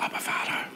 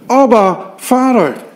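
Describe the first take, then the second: First: The phrase is whispered softly. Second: The phrase is called out loudly. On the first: The speaker calls it wrong. "We fluisteren niet" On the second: The speaker calls it right. "wij roepen"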